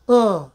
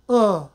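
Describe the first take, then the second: Both takes have the same delivery.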